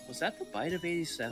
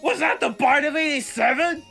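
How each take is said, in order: First: It is said subtly, sounding confused. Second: It is yelled, like the original video.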